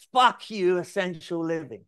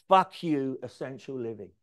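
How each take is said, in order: First: Higher, louder "Fuck you, essential living"; a client who loves the brand name, hyped up; ecstatic. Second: Said in the usual way. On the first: Retold or imitated. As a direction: shout the new name in joy. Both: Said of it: "He went absolutely bonkers".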